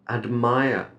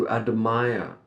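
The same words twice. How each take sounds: No difference in how they are said.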